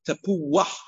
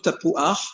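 First: An 'ah' glide comes before the final consonant. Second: No 'ah' glide comes before the final consonant. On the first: The speaker calls it right. "we make like a wah" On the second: The speaker calls it wrong. "lo tapuach"

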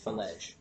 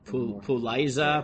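First: The name begins with an F sound. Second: The name begins with a P sound. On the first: "that's how you pronounce that" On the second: "which I guess you could read as Puliza"

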